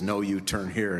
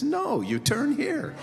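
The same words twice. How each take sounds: First: Said in the usual way. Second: "No," much higher, slow, pause before "you turn here."; stressed pause. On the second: Shown as a demonstration. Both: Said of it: "same joke you can tell".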